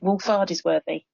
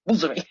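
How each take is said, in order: First: The name is said with all its syllables. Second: The name is squeezed into three short syllables. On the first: "they don't pronounce it Wolf Ardersworthy" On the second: "miss out the entire two-thirds of the word and just go"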